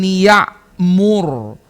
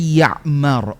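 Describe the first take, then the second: First: The last syllable has the vowel u. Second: The last syllable has the vowel a.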